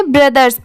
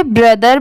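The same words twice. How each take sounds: First: "ब्रदर्स" with a final S; plural brothers pronunciation. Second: "ब्रदर" ending on R, no S; singular brother pronunciation. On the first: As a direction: add an S sound to the end of "ब्रदर्स". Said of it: "तो इसे ब्रदर्स पढ़ेंगे". ("ब्रदर्स", आखिर में स की आवाज़) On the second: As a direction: say "ब्रदर" without the final S sound. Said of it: "तो इसे ब्रदर पढ़ेंगे". ("ब्रदर", आखिर में स नहीं) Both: Shown as a demonstration.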